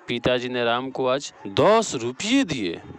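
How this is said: The stress falls on दस रुपये. "यहाँ दस रुपये हो जाएगा।"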